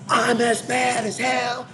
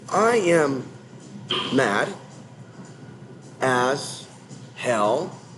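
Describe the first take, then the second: First: It is said loudly and forcefully, with high energy. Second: It is said slowly and flatly, with low energy. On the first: The speaker sounds truly outraged. The speaker calls it right. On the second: The speaker sounds numb and unconvincing. The speaker calls it wrong. "if you say it like that, like you're on heroin"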